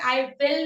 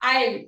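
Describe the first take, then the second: First: Both words are said fully and separately. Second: The words merge into one short syllable. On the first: The speaker calls it wrong. "इसको आई विल नहीं बोलते" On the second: The speaker calls it right. "इस तरह से इसको बोला जाता है"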